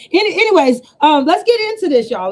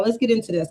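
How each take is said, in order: First: Louder push. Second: Said in the usual way. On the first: Real, not acted. Restarting the live after a tangent.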